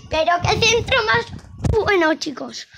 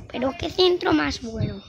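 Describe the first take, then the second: First: High, loud commentator rave; excited commentary. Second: Said in the usual way. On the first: Acted. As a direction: rave about the cross like a commentator. Praising a cross, then repeating.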